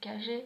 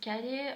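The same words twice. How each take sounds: First: It is said with an Argentine accent. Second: It is said with a Spanish accent.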